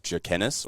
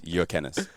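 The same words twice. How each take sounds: First: The surname is said with Australian English sounds. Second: The surname is said with its original Lithuanian sounds. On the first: The speaker calls it wrong. "the bastardized Australian version" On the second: The speaker calls it right. "the correct pronunciation"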